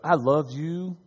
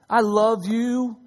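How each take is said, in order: First: It is said in a harsh, cold tone. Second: It is said in a warm, loving tone. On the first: The words carry hostility despite their content. The speaker calls it wrong. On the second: The words carry affection. The speaker calls it right.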